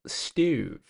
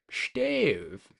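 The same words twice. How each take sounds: First: Said in the usual way. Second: Put-on fancy British pronunciation, long falling vowel; playful fancy British accent. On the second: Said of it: "a fancy British accent".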